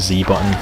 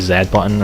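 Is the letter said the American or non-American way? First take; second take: American; non-American. First: The letter is said the American way. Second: The letter is said the non-American way.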